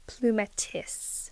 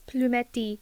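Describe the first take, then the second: First: It is pronounced the English way. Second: It is pronounced the French way. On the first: "so how do I say it in English? And it's plumetis" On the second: "oh, it's French. You say it like this"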